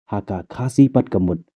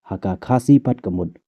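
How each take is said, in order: The two takes are said the same way.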